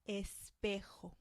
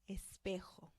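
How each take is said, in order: Both takes have the same delivery.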